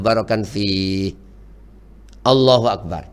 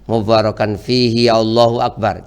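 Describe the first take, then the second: First: A short pause comes before Allahu Akbar. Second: The words run into Allahu Akbar without pause. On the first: The speaker calls it right. "Ada jeda sedikit" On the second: The speaker calls it wrong. "Intinya jangan seolah-olah bacaannya nyambung"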